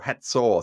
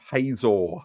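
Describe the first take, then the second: First: The middle consonant is a TS sound. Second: The middle consonant is a plain Z sound. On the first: The speaker calls it right. "it's got a like a T S sound like cat" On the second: The speaker calls it wrong. "not the English sound of Hazor"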